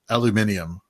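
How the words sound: It is said with the British ending. "The best English word pronunciation is"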